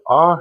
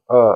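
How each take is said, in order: First: "a" said as a full open "ah"; full vowel a. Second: "a" reduced to a short neutral "uh"; reduced vowel a. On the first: Teacher demonstrating to students, "a" as a full open "ah". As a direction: sound the "a" clearly as an open "ah". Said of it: "unstressing sound a ... reduced sound a". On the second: Teacher showing students the reduced vowel, "a" as a weak "uh". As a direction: let the "a" collapse into a weak "uh". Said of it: "reduced sound a". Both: Shown as a demonstration.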